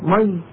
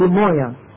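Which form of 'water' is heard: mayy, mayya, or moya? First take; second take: mayy; moya. First: The word sounds like short 'mayy', one syllable. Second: The word sounds like 'moya', ending in a vowel. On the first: This is how the word is said in the Levant. "في الشام بطول مي" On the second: This is how the word is said in Saudi Arabia. "هنا في المملكة بطول المويه"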